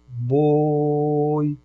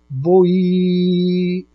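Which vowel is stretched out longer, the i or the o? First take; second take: o; i. First: The o sound is stretched out long. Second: The i sound is stretched out long. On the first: The speaker calls it right. "Fala a palavra boi esticando o O" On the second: The speaker calls it wrong. "Agora vamos fazer com o I"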